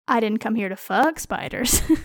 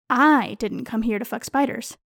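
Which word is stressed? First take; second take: fuck; I. First: The word "fuck" carries the strongest stress. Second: The word "I" carries the strongest stress. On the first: I came for other business involving spiders. "I am here on other spider-related business" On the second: Someone else, not me, came for that. "I am accusing someone else of being present solely to fuck spiders"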